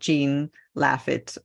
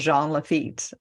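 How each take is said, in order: First: The name is pronounced with English sounds. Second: The name is pronounced with French sounds. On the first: The speaker calls it wrong. "you don't pronounce it Jean Lafitte or whatever" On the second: The speaker calls it right. "names of the streets that are pronounced in in a French way"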